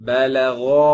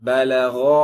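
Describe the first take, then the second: Both takes have the same delivery.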